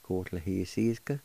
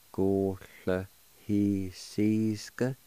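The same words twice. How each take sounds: First: Said in the usual way. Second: "Go le he sees ga" said slowly, each syllable separate; slow demo. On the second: Shown as a demonstration. Teacher to radio learners, first take, slow and careful. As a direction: stretch out "Go le he sees ga" for learners to copy. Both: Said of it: "and it's pronounced like this".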